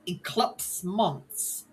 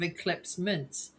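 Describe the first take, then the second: First: The vowel in the second word sounds like 'u'. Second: The vowel in the second word sounds like 'i'. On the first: The speaker calls it wrong. "she said um like eclipse months" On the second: The speaker calls it right. "instead of eclipse mints"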